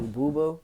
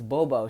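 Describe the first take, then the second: First: "Boo Boo" said as two equal syllables, boo boo; wrong name Boo Boo. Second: "Bobo" said as bo-bo, with an o sound in both syllables; correct name Bobo. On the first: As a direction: say "Boo Boo" like a mispronounced nickname, two long oo sounds. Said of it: "Did I say it wrong?". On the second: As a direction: correct her by saying "Bobo" with clear o vowels. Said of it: "Yo, it's Bobo". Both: Retold or imitated.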